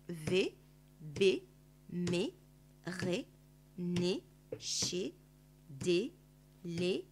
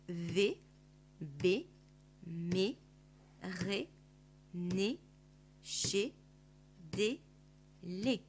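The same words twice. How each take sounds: First: The syllables are read at a faster pace. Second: The syllables are read at a slower pace.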